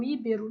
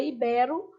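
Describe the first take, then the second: First: Íbero stressed on the first syllable, Í-bero; common mispronunciation. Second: Ibero stressed on BE, i-BE-ro; correct stress. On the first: Teacher quoting what we love saying, misstressed. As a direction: say Í-bero, the wrong way. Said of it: "a gente adora falar um íbero". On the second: Teacher correcting a common slip for students, correctly stressed. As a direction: put the weight on the middle of ibero. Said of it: "Mas é ibero". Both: Shown as a demonstration.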